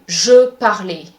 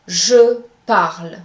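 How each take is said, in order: First: The final E is pronounced as a vowel. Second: The final E is silent. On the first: The speaker calls it wrong. "you cannot say je parlais. This is incorrect" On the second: The speaker calls it right. "The E at the end of these words is silent"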